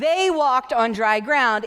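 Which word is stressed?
walked. The stress falls on the word walked. The walking is the important part. The speaker calls it wrong. "It's not"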